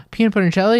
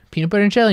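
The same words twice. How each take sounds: First: Higher, louder, rising delighted question; mock thrilled kid. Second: Higher, louder cheery announcement; mock mom. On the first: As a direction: squeal it like a kid getting a treat. Girl excited in retold ad. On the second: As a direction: serve it up like a sitcom mom. Mom answers in retold ad.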